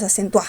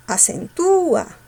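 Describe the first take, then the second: First: "acentúa" said as acen-TUÁ, force on the last A; wrong final stress. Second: ACENTÚA slow and high, long stressed U before the final A. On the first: Teacher offering the mistaken version, final A stressed in acentúa. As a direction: glide over the U in "acentúa" and hit the final A. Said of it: "No, ¿verdad?". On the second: Teacher demonstrating a hiatus, stressed U in acentúa. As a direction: stretch the U in "acentúa" as a-cen-TÚ-a. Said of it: "cerrada abierta y cerrada con fuerza". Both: Shown as a demonstration.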